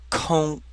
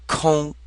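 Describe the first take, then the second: Both takes have the same delivery.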